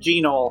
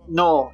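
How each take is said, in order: First: The opening G is pronounced. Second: The opening G is silent. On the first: The speaker calls it right. "which is so much more fun" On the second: The speaker calls it wrong. "you said Gnoll and not G-Gnoll"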